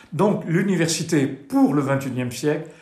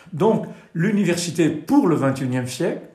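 Both takes have the same delivery.

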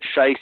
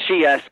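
First: The vowel matches the German word for shit. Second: The vowel matches the German word for shoot. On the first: It turns the name into a rude word. The speaker calls it wrong. "it means a totally different word in German" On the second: It is the speaker's actual name. The speaker calls it right. "it's actually pronounced Scheiss"

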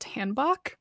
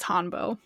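First: The word ends with a clear k sound. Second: The word ends without a clear k sound. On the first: The speaker calls it wrong. "it's not pronounced hanbok" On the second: The speaker calls it right. "according to Google pronunciation, it is hanbo"

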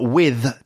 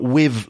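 First: The word ends with a th sound. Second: The word ends with a v sound. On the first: "not with TH" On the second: "like with a V sound"

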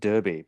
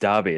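First: It is said in the American way. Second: It is said like the English city. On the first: This is how the term was assumed to sound. "I always thought it was derby" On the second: This is how the guest says it, like the city. "I said derby because I lived in England"

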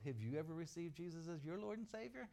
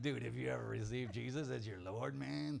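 First: It is said in a plain, ordinary voice. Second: It is said in a laid-back stoner voice.

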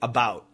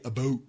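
First: The vowel in 'about' is a wide, open 'ow' sound. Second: The vowel in 'about' is a raised, tighter 'oh' sound. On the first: The speaker sounds American. "Americans will typically say about" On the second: The speaker sounds Canadian. "But Canadians say about"

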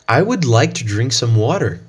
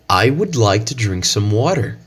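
First: It is spoken in an American English accent. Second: The same.

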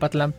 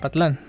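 First: The stress is on the first syllable. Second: The stress is on the last syllable. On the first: This is how the name is usually said. "siempre le he pronunciado como Patlán" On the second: This matches the written accent mark. "debería llevar acento para ser Patlán"

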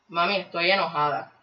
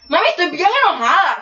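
First: It is said calmly, without real anger. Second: It is said with real, projected anger.

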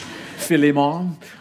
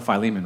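First: The name is pronounced the Spanish way. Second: The name is pronounced the English way.

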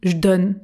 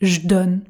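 First: The E of "je" is dropped. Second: The same.

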